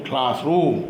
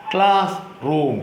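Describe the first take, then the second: First: Said in the usual way. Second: class റൂം with a long pause between the two parts; split into parts. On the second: Shown as a demonstration. Teacher models for pupils, class റൂം broken in two. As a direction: say class, wait, then റൂം. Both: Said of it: "Say the following words".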